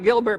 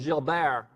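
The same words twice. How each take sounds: First: The name is pronounced the way it is spelled. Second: The name is pronounced differently from its spelling. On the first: The speaker calls it wrong. "it looks like Gilbert" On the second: The speaker calls it right. "but it's really Gilbert"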